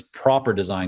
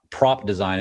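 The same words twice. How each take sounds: First: "proper design" with "proper" as two syllables and a clear R; "proper design", the R in "proper" said fully; correct pronunciation. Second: "prop design" with "prop" as one short syllable, no R; "prop design" said clipped, the -er of proper dropped; wrong pronunciation. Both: Shown as a demonstration. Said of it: "I left out the R".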